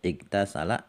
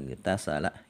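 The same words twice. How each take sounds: First: The opening vowel is pronounced after a break. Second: The opening vowel is dropped, linked to the previous word. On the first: "kemudian kita potong, kemudian igtasala baru dibaca" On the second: "kalau mau kita baca bersambung hatta igtasala"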